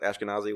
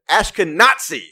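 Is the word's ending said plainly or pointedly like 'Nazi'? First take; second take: plainly; like Nazi. First: The ending is said plainly, not like 'Nazi'. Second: The ending is said pointedly like 'Nazi'. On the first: The speaker calls it right. "I think that's how you pronounce it" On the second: It links the group with Nazis. The speaker calls it wrong.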